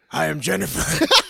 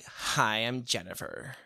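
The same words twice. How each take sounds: First: It is said without the valley-girl voice. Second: It is said in an uppity valley-girl voice.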